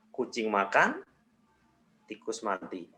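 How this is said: There is a pause after "makan". "jedanya diganti di setelah makan"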